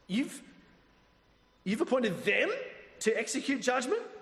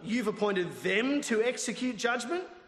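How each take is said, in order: First: It is read with an incredulous, questioning tone. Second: It is read in a plain, flat way.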